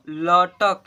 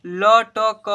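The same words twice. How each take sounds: First: "लटक" joined as ल-टक; blended into one word. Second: "लटक" as "ल, ट, क", loud and slow; each letter of "लटक" separate and stretched; spelled letter by letter. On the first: Teacher reading the word to children, blended. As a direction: close "लटक" on क, no final vowel. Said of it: "क्या पढ़ेंगे बच्चों?". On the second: Teacher spelling aloud for pupils, letter by letter. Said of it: "देखिए हिजे कीजिए ना". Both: Shown as a demonstration.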